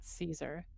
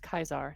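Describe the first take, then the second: First: The name is said with the English pronunciation. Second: The name is said with the Latin pronunciation. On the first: The speaker calls it wrong. "not Caesar" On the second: The speaker calls it right. "If you actually pronounce it in Latin, it's Kaisar"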